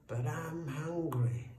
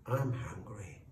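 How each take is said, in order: First: Slow, higher-pitched complaint; slow, insistent snake's whine; protesting. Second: Understated, bold snake; matter-of-fact boldness. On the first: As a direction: draw it out as a plaintive protest. Snake protests after being shooed away. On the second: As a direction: state it boldly, without raising the voice. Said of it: "said the snake boldly". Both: A narrator's reading.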